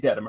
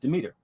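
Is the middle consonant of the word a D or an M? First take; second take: D; M. First: The word is said with a D sound in the middle. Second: The word is said with an M sound in the middle. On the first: The speaker calls it wrong. "he kept calling it Dedimer" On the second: The speaker calls it right. "it says Demeter"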